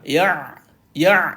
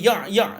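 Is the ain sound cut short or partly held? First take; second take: partly held; cut short. First: The ain sound is held at middle length. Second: The ain sound is stopped too early. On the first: The speaker calls it right. "di tengah-tengah" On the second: The speaker calls it wrong. "Tak boleh ya' ya' ni, tak boleh"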